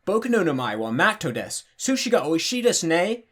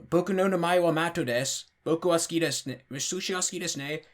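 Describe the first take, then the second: First: Exaggerated foreign-accented Japanese with swooping pitch; mock beginner's Japanese, pitch lurching up and down; clumsy learner Japanese. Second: Put-on foreign-accented Japanese with the swoops held level; clumsy beginner's Japanese, trying to keep the pitch even; learner attempting flat Japanese. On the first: Showing how untrained learners end up talking, clumsy foreign accent in Japanese. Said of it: "would otherwise end up talking like this".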